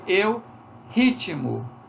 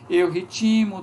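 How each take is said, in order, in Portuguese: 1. A tônica está na primeira sílaba. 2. Um i acrescentado leva a tônica depois do t. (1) "eu tenho que dizer eu ritmo" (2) "certamente ela vai dizer eu ritimo"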